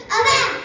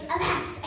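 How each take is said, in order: First: "Avast" shouted, higher and louder. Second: Said in the usual way. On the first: Shown as a demonstration. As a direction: call out "Avast" loudly. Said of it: "simply say it louder". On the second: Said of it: "you say".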